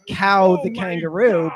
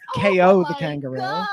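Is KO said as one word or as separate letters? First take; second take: one word; separate letters. First: KO is said as one word, like cow. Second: KO is said as two separate letters. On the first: "I also would pronounce this Cow the kangaroo" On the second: "but I guess it's K O the kangaroo"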